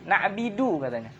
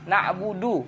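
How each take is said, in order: First: The vowel after the b is i. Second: The vowel after the b is u.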